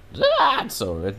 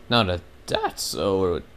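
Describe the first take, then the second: First: Voice cracking. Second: Said in the usual way. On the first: Real, not acted. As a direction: let the voice break as it climbs. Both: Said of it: "man, my voice just cracked".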